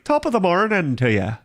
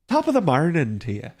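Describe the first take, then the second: First: Lightly lilting Irish brogue, pitched up; a playful stage-Irish greeting; sing-song Irish accent. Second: Corrected Irish accent. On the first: Streamer jokes to chat in a mock Irish accent. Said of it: "sing-songy like this". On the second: Streamer retries the Irish greeting for chat, mock brogue. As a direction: redo the greeting with a proper Irish lilt. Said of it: "it's not morning, it's marnin'". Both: Shown as a demonstration.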